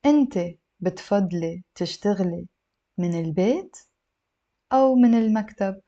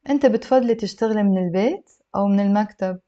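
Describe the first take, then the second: First: Phrase by phrase, with pauses; slow, careful model reading; a little slow. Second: Whole question in a fluent flow; connected model reading; slightly brisk, few pauses; a little faster. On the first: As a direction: break the question into small chunks for learners. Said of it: "a little bit slow". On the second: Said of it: "I'll read it a little bit faster". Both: Shown as a demonstration.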